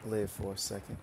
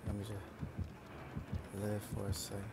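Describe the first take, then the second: First: Said in the usual way. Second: Slow, soft, stretched-out plea; drawn-out plea. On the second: Real, not acted. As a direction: beg for a moment to breathe. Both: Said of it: "I can't even speak right now".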